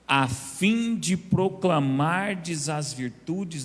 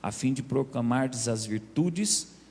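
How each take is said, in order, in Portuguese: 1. A frase é dita mais devagar. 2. A frase é dita em ritmo normal.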